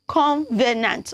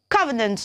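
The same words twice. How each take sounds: First: The word is said with three syllables. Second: The word is said with two syllables. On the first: The speaker calls it wrong. "not covenant. Don't use the three syllable" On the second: The speaker calls it right.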